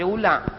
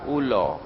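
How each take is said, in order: First: It is said in a northern Malay accent. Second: It is said in a Pahang Malay accent. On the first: "orang utara kalau disebut U L A R, dia baca ulang" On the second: "orang Pahang, Perak sama Terengganu U L A R"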